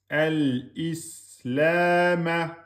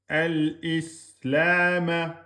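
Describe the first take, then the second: No difference in how they are said.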